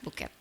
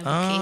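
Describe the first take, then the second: First: It is said with Indonesian pronunciation. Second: It is said with English pronunciation.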